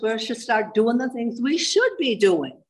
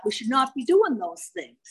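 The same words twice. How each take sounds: First: Last "should" raised and drawn out; stress on SHOULD. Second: "not" picked out with raised pitch; stress on NOT. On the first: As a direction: slowly lean on "should". Contrasting shortcomings with defects. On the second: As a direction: lean on "not" to forbid it. Contrasting defects with shortcomings. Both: Shown as a demonstration.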